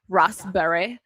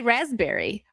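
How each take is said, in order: First: "Raspberry" the British way, "RAHS-bree"; British accent. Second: Said in the usual way. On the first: Shown as a demonstration. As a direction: say "Raspberry" in a mock British accent, long first vowel. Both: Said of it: "how the Brits say raspberry".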